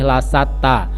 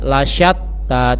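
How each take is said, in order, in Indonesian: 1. Konsonan tengah adalah bunyi 's' biasa yang berdesis. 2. Konsonan tengah adalah bunyi 'sh' yang berdesis. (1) "tidak boleh lasatta" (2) "di situ ada huruf shin, jadi harus sedikit mulutnya didesahkan"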